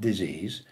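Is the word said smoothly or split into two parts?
smoothly. The word is said smoothly as one unit. It means an illness. "not disease"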